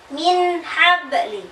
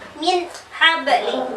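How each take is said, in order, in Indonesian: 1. Bunyi n pendek, jelas, dan tidak didengungkan. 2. Bunyi n diputus dengan jeda. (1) "Yang benar" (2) "diputus min habli, salah"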